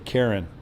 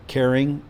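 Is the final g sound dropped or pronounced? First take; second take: dropped; pronounced. First: The word ends without the g sound. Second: The word ends with a full g sound. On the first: "He'll say Karen" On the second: "he won't say caring"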